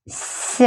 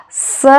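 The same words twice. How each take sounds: First: С as a soft, palatalized 'sy'; softened с. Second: С as a hard, plain S. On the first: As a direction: soften с with the tongue raised toward the palate. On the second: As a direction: say с alone without softening it. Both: Shown as a demonstration. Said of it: "soft sign makes the previous letter sound softer".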